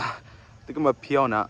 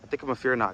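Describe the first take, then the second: First: Fearnot is said in a Korean accent. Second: Fearnot is said in his plain accent.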